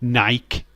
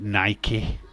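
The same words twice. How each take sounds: First: The name is said the British way. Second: The name is said the American way.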